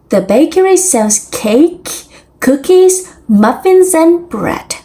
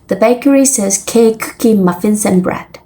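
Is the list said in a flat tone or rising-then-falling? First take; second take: rising-then-falling; flat. First: Items rise, and the voice falls at the end. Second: All items stay on one flat note.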